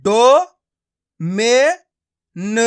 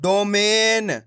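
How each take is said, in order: First: डो, मे, न each sounded alone; syllable by syllable. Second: डोमेन slow and joined; blended word. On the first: Teacher breaking a word up for learners, syllable by syllable. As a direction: pause between डो, मे and न. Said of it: "एक एक अक्षर का उच्चारण करके". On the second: Teacher showing learners the joined result, blended word. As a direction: stretch डोमेन as one word. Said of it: "तो मिलके बन जाएगा". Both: Shown as a demonstration.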